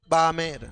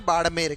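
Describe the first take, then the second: First: It is said with an English accent, retroflex dropped. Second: It is said with a native Hindi retroflex sound. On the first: The speaker calls it wrong. "किसी अंग्रेज को बोलो ... वो क्या बोलेगा?" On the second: The speaker calls it right. "अपने एक जिले का नाम है बाड़मेर"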